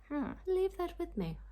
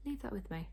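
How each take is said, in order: First: High, playful sing-song. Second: Said in the usual way. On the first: Real, not acted. Vlogger to viewers, putting the question aside playfully. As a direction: toss it off lightly, high up. Unsure about Austen weddings.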